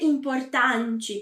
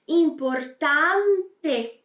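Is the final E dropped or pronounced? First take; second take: dropped; pronounced. First: The final E is dropped. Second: The final E is fully pronounced. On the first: The speaker calls it wrong. "nada de dizer importante" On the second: The speaker calls it right. "eu digo importante"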